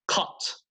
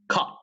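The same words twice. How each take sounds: First: The final T is released with audible air. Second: The final T is held back without air. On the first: "British English" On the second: "But American English"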